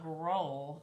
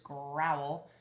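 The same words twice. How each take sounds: First: The vowel sounds like the one in 'own'. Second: The vowel sounds like the one in 'how'. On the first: The speaker calls it wrong. "It's not growl" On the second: The speaker calls it right. "it's growl. ... Growl under the O U's"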